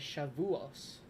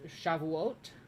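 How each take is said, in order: First: The word ends with an s sound. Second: The word ends with a t sound.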